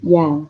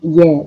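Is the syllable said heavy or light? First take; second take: light; heavy. First: The syllable is said light and thin. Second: The syllable is said heavy and thick. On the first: The speaker calls it right. "tapi ya, enteng" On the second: The speaker calls it wrong. "bukan ya"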